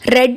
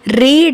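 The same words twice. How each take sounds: First: The vowel is short, rhyming with 'bed'. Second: The vowel is long, rhyming with 'need'. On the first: The action was already completed. "Read is the past form of reading" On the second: The action happens now or in the future. "Read is the simple form of reading"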